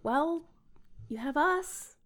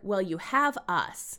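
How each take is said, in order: First: It is said in a gentle tone. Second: It is said in a firm tone.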